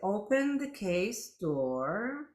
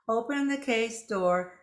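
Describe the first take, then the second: First: It is read slowly and deliberately. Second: It is read quickly, in a rush. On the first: The speaker calls it right. "See how you read it slowly" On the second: The speaker calls it wrong. "you don't go"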